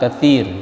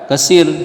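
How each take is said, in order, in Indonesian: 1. Huruf tengahnya bunyi 'th' yang lembut. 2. Huruf tengahnya bunyi 's' biasa. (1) "bacalah dengan huruf yang sempurna" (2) "jangan terbaca kasir"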